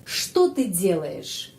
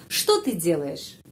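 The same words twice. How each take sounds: First: Что ты делаешь slow and clear, что stressed; teacher modelling что ты делаешь; slow careful question. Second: Что ты делаешь repeated slowly, что stressed; teacher repeat. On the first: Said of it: "what are you doing". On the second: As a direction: say the question again for learners. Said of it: "itu pertanyaan". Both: Shown as a demonstration.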